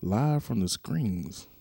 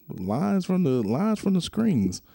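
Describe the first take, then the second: First: Slow, drawn-out mock of the misspoken title; mocking wrong name. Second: Correcting the name. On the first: Host mocks his own slip of Pat's podcast name, slow and drawn out. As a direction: stretch the botched name out slowly. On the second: Shown as a demonstration. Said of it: "I said it all wrong".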